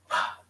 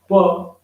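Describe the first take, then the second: First: It is a voiceless British p sound. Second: It is an Indian p with vibration.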